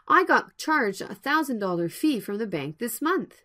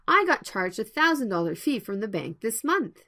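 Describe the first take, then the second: First: The sentence is spoken at a slow pace. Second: The sentence is spoken at a normal pace. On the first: "First, the slow version" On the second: "Next, the normal version"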